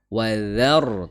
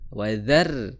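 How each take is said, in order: First: The r sound is heavy and thick. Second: The r sound is light and thin. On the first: The speaker calls it right. "tebal ro-nya" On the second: The speaker calls it wrong.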